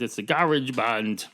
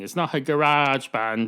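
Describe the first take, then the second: First: Garage is said with an Irish pronunciation. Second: Garage is said with an American pronunciation. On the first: The speaker calls it right. "Irish garage band thing" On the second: The speaker calls it wrong.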